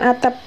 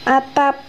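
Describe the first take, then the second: First: The second vowel is an 'e' sound. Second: The second vowel is an open 'a' sound. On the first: This is a dialect pronunciation. The speaker calls it wrong. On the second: This is the standard pronunciation. The speaker calls it right. "lafal baku adalah lafal yang bebas dari ciri-ciri lafal dialek setempat"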